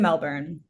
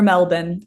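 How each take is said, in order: First: It is said the American way. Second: It is said the Australian way.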